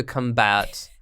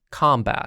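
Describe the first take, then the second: First: "combat" stressed on the second syllable, cum-BAT; mispronounced combat. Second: "Combat" said as COM-bat; corrected combat. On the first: Real, not acted. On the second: Shown as a demonstration. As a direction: stress the first syllable of "Combat", open o. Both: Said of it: "Did I say combat?".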